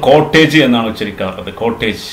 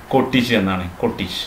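First: കോട്ടേജ് as "KOT-tayj"; long "-ayj" ending on കോട്ടേജ്; common mispronunciation. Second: കോട്ടേജ് as "KOT-ij"; short "-ij" ending on കോട്ടേജ്; correct pronunciation. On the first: Teacher showing the usual error, കോട്ടേജ് with "-tayj". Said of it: "ഇത് നമ്മൾ". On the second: Teacher modelling for learners, കോട്ടേജ് with "-tij". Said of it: "ശരിക്കുള്ള ഉച്ചാരണം". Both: Shown as a demonstration.

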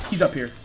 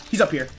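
The two takes are said the same way.

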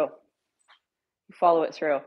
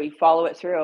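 First: "follow" stretched, slow and firm; slow emphatic "You follow it through"; slow emphatic repeat. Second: Said in the usual way. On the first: Real, not acted. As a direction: lay it down word by word. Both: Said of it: "repeated for emphasis".

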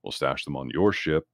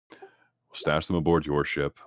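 First: Said in the usual way. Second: Slow, stress on "aboard"; "aboard" leaned on, each word spaced out; slow, deliberate "We'll stash them aboard your ship"; emphatic restatement. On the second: Acted. Same proposal restated with emphasis.

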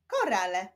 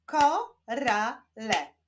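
First: Said in the usual way. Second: KO, RA, LE, slowly with gaps; syllable by syllable. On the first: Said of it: "Powstaną z nich wyrazy". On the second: Shown as a demonstration. Teacher joining syllables into a word, Ko-ra-le slowly split apart. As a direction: slowly break "Korale" into three syllables. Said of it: "łączmy sylaby".

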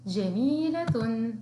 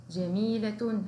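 First: جميلة said slowly, syllable by syllable; slow dictation. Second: Said in the usual way. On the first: Shown as a demonstration. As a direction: draw out جميلة for children to copy. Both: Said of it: "نكرر مرة أخرى".

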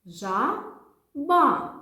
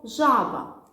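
First: «Жаба» drawn out higher and louder, ending on a full а; slow syllable demo. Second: Loud demo. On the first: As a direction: sound out «Жаба» slowly, chin on palm. (повільно й голосно «Жаба» по складах) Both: Shown as a demonstration. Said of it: "давайте скажемо слово".

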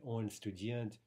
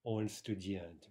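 First: Said in the usual way. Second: Slow Russian example. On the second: Shown as a demonstration. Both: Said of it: "in sentences like".

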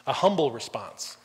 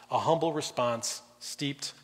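First: "humble" leaned on with a falling tune; "humble" weighted and falling; stress on humble. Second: "humble" drawn out slowly, rising; slow down and lift "humble"; "humble response steeped" said slowly, tune rising; slow stress on humble. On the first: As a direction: press the word "humble". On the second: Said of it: "in humility". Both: Shown as a demonstration.

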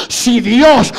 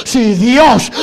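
No difference in how they are said.

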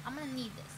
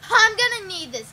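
First: Muttered to self. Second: Loud announcement. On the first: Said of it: "I'm gonna need this, guys". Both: Real, not acted.

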